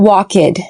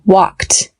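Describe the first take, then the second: First: The ending is not pronounced as a t sound. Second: The ending is pronounced as a t sound. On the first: The speaker calls it wrong. "not walked" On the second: The speaker calls it right. "the ed has a T ending"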